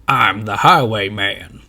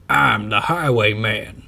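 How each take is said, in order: First: Slow, loud drawn-out stage announcement; announcing. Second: Slow, loud repeated boast; same slow drawn announcement repeated. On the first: Highwayman announces himself to the crowd, slow and loud. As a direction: boom it out slowly from the stage. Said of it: "announces a man on the stage". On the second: Highwayman repeats his introduction, slow. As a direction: say it again slowly. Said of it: "says the man again". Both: A narrator's reading.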